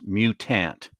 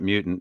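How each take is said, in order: First: The word is said in an unusual, film-style way. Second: The word is said in the ordinary way. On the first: This is how the film pronounces it. The speaker calls it right. "like they pr- pronounce it in that movie" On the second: This is the usual pronunciation. The speaker calls it wrong. "it's not mutant"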